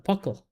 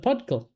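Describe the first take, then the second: First: No D sound comes before the K. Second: A D sound comes before the K. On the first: "Is that how you say it?" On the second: "I don't know why I think there was a D there"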